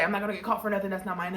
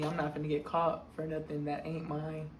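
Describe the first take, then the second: First: I'm not gonna and that's not mine said properly, fast; corrected grammar. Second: Low, quiet deadpan repeat of I'm not finna; ironic self-quote. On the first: Correcting her slang for the viewers, quick proper rewording. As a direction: rephrase it properly, quick and prim. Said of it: "shall I say". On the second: Repeating her own words to the viewers, quiet deadpan irony. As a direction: mutter it back dryly, savoring the irony. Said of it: "The, the irony". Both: Shown as a demonstration.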